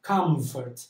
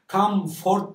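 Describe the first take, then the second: First: The second syllable has a reduced schwa vowel. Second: The second syllable has a full stressed o. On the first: The speaker calls it right. "ikinci hece vurgusunu kaybediyor ve artık şıva ile okunuyor" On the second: The speaker calls it wrong. "comfort değil de"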